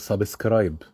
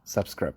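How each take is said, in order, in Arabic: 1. يُضاف صائت إضافي في وسط الكلمة. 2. الكلمة تُنطق بشكل عادي دون إضافة أي شيء. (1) "ضاربين ايه في النص كده" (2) "طبعا هي دلوقتي subscribe"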